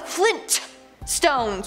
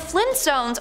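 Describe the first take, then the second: First: The T sound in the middle is clearly pronounced. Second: The T sound in the middle is dropped. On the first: "with the hard T" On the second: "the Flintstones are pronounced as so"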